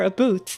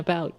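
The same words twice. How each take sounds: First: The vowel has a rural Canadian sound. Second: The vowel has a standard, non-Canadian sound. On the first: "more about than about" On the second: "more about than about"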